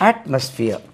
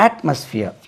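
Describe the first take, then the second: No difference in how they are said.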